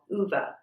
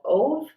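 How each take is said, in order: First: The name sounds like 'Uva'. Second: The name sounds like 'Ove'. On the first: The speaker calls it right. "I do believe the correct pronunciation is A Man Called Uva" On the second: The speaker calls it wrong. "some people have pronounced it A Man Called Ove"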